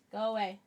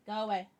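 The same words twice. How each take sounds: The two takes are said the same way.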